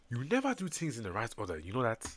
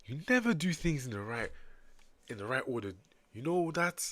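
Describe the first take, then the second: First: Put-on corrected retake in an African accent. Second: Put-on African accent that misses the mark; botched African accent. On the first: Redoing the line after getting it wrong, African accent. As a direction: say it as an African character would. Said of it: "Africans never talk like that". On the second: Scolding line for a Sumerian character, botched African accent. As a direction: attempt an African accent and miss. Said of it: "I got that terribly wrong".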